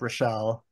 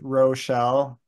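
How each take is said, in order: First: The name is said quickly and casually. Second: The name is said slowly and very clearly. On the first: It is ordinary conversation. "if I'm just talking to her casually, it'll be like" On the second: The name must not be mistaken for another. "so it's very clearly like not Michelle"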